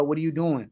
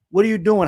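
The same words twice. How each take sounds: First: Said in the usual way. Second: Louder, higher, incredulous repeat of What are you doing?; emphatic repeat. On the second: Real, not acted.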